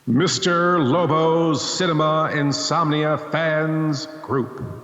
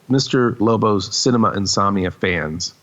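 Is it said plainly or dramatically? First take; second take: dramatically; plainly. First: It is said in a dramatic, theatrical way. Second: It is said in a plain, ordinary way.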